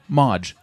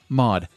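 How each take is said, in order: First: The word ends with a 'j' sound. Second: The word ends with a plain 'd' sound. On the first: The speaker calls it wrong. "There is no Modge" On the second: The speaker calls it right. "It's Mod"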